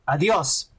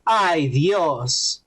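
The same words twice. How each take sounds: First: "Adios" as one word, stress on the o; wrong word said. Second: "Ay Dios" as two words, Ay drawn out; Ay Dios, lower, with a sigh on Ay; right phrase. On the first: Mocking the actress, saying Adios instead of Ay Dios. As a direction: Adios said flatly as goodbye. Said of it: "adios means goodbye". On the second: Showing his friend the right phrase, Ay Dios drawn out. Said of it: "that's Oh God". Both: Shown as a demonstration.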